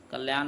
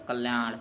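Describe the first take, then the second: First: कल्याण ending in a plain dental न, the mistake; wrong pronunciation. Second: कल्याण ending in a retroflex ण; correct pronunciation. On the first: Teacher models the wrong कल्याण. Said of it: "ये गलत हो जाएगा". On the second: Teacher gives the correct कल्याण to the class. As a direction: finish कल्याण with the tongue curled back for ण. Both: Shown as a demonstration.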